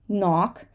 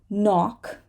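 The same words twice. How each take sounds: The two takes are said the same way.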